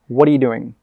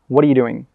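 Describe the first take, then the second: First: The words are said fast and run together. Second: The words are said fast and run together.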